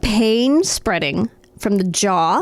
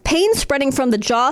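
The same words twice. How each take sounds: First: It is said slowly, item by item. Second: It is said at normal reading speed.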